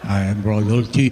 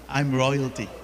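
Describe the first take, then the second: First: It is said flatly, without excitement. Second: It is said proudly, with excitement.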